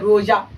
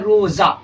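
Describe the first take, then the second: First: The middle consonant is a j sound. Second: The middle consonant is a plain z sound. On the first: "तब जीम का आवाज निकलता" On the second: "जा का आवाज निकल रहा है"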